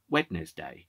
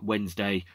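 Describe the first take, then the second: First: The word is sounded out following every letter. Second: The word is said in its usual short form.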